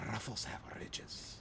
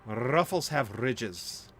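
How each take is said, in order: First: Whispered Ruffles have ridges; whispering. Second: Slow commercial tagline read; ad slogan voice. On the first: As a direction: breathe the slogan in a whisper. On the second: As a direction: draw out Ruffles like a TV ad. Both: Shown as a demonstration. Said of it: "Ooh, I did that well".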